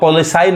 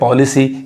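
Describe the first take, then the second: First: The last vowel sounds like 'eye'. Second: The last vowel sounds like 'ee'. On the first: The speaker calls it wrong. "यहाँ पे आप पॉलिसाई नहीं कहेंगे" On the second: The speaker calls it right. "यानी ई sound आ रहा है"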